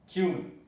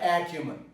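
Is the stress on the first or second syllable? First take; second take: second; first. First: The stress is on the second syllable. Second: The stress is on the first syllable. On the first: The speaker calls it right. "The stress is cumin" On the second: The speaker calls it wrong. "not acumen"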